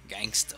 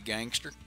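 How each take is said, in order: First: The word ends with an open 'a' sound. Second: The word ends with a clear 'er' sound.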